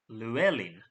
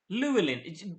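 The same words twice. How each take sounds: First: The stress is on the middle syllable. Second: The stress is not on the middle syllable. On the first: The speaker calls it right. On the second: The speaker calls it wrong.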